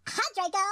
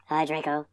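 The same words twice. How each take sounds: First: A mild mopey sigh of a greeting; depressed voice. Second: Softer, gloomier hello; depressed voice. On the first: Acted. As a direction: greet him like you're bored of life. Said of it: "I said in a depressed voice". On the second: Shown as a demonstration. Mocking the fanfic, reading a greeting depressed and soft. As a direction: read it as truly depressed, low and soft. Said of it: "I'd be able to read it more accurately".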